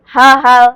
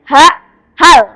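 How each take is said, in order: First: The syllables run together without a pause. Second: There is a pause between the syllables. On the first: The speaker calls it wrong. "Tidak boleh langsung. ... Tidak boleh seperti itu ya" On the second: The speaker calls it right. "harus ada jeda ketika membacanya"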